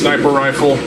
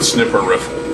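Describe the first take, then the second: First: The first syllable sounds like 'snipe'. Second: The first syllable sounds like 'snip'. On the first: The speaker calls it right. "it's sniper rifle" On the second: The speaker calls it wrong. "not snipper rifle"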